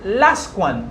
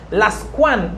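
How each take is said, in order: First: The stress is on the first syllable. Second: The stress is on the second syllable. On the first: "I'm stressing the first syllable" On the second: "I'm stressing the second syllable"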